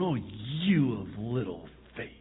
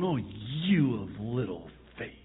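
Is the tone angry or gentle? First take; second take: angry; angry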